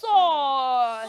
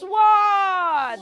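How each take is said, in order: First: No w sound is heard after the s. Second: A w sound is heard after the s. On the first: The speaker calls it right. "You should say" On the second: The speaker calls it wrong. "Never say"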